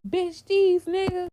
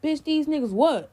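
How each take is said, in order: First: High, drawn-out retold outburst; imitating a friend's loud gossip opener; retold blurt. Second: High retold challenge, landing on WHAT; imitated confrontational echo; challenging echo. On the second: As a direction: throw her words back as a question. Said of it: "he repeated exactly what she said".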